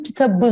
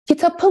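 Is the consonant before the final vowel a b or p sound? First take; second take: b; p. First: The word has a b sound before the end. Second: The word has a p sound before the end. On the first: The speaker calls it right. "Kitabı dersin. Buradaki P sesi yumuşağı olan B'ye döndü" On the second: The speaker calls it wrong. "Kitapı mı dersin"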